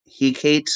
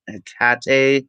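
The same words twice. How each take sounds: First: Hecate said HEE-kate, silent final e; Hecate as two syllables. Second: Hecate said heh-KAH-tay, final e sounded; Hecate as three syllables. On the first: Reader guessing at the Greek goddess's name, Hecate as HEE-kate. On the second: Reader offering another way to say the goddess's name, Hecate as heh-KAH-tay. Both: Shown as a demonstration. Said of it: "however you pronounce it".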